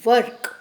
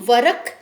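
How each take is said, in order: First: The r joins the k with no vowel. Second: A full vowel follows the r before k. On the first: The speaker calls it right. "हम र को आधा कर देंगे और हम बोलेंगे वर्क" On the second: The speaker calls it wrong. "तो हम वरक नहीं बोलेंगे, र को पूरा नहीं बोलेंगे"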